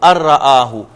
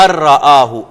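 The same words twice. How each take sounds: First: The n merges into a doubled r sound. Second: The same.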